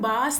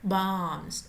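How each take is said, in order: First: The vowel is plain, without nasal sound. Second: The vowel is nasalized through the nose. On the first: "ചന്ദ്രബിന്ദു ഇല്ലായിരുന്നെങ്കിൽ വെറും ബാസ് എന്നായി പോയേനെ" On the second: "ആം എന്ന് വന്നതുകൊണ്ട് ബാംസ്"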